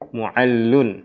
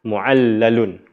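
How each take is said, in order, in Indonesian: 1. Kata ini punya satu 'l' bertasydid, tanpa suku kata tambahan. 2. Kata ini punya tambahan suku kata 'la'. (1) "Mu'allun, bukan mu'allalun" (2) "Tapi boleh juga menambahkan lam"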